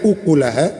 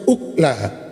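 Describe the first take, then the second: First: A 'u' vowel follows the k sound. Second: No vowel follows the k sound. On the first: "bisa dibaca dengan dhammah kafnya" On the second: "atau dibaca sukun"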